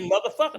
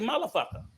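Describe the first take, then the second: First: The word is said in standard English. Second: The word is said with a Spanish accent. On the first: This is how native speakers say it. The speaker calls it right. "So we say motherfucker" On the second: This is how Spanish speakers say it. The speaker calls it wrong. "They say motherfucker"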